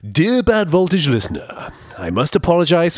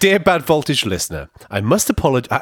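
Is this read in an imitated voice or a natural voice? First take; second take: imitated; natural. First: It is read in an imitated voice. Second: It is read in the speaker's natural voice.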